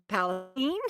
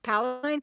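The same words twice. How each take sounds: First: It uses the local Texas pronunciation of the name. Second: It uses the widely known pronunciation of the name. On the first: This is how locals actually say the town name. The speaker calls it right. "in Texas we pronounce Palestine" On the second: This is how outsiders assume the town name is said. The speaker calls it wrong. "a lot of people think that it's pronounced Palestine"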